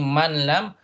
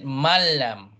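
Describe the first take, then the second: First: The n is kept separate before the l. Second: The n is merged into the l. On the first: The speaker calls it wrong. "Instead of saying man lam" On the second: The speaker calls it right. "you said malam"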